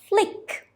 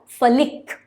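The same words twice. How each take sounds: First: The f and l sounds glide together. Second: The f and l sounds are split apart. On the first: The speaker calls it right. "they are blending together. ... it's flick" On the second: The speaker calls it wrong. "It's not flick"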